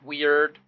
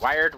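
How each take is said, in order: First: The word is said with a plain 'weird' sound. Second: The word is said sounding like 'wired'.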